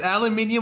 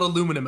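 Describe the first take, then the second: First: The word has five syllables, with an extra vowel. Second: The word has four syllables, without the extra vowel. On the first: This is the British form. The speaker calls it right. "it's aluminium" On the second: This is the American form. The speaker calls it wrong. "Aluminum is fucking stupid and it's dumbed down because Americans"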